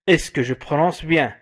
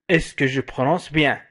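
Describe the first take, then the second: No difference in how they are said.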